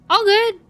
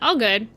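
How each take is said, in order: First: All good leaps much higher and louder; excited squeal. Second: Said in the usual way. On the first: Shown as a demonstration. Streamer cheerfully reassures chat, high excited squeal. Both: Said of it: "repeats All good twice".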